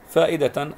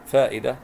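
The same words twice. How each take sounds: First: فائدة read "faa'idatan"; tanween ending. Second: فائدة read "faa'idah" with silent t; pausal ending. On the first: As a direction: sound the final "tan" of فائدة. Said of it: "وتنوين". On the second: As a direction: close فائدة on "ah", no tanween. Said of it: "أيضًا تاء مربوطة". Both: Shown as a demonstration.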